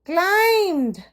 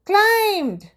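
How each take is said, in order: The two takes are said the same way.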